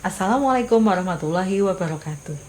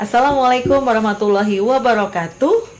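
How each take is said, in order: First: The intonation falls through the greeting. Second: The intonation rises through the greeting. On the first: The greeting sounds like a closing and the audience answers listlessly. The speaker calls it wrong. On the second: The greeting sounds energetic and the audience answers with energy. The speaker calls it right. "Makanya intonasinya naik"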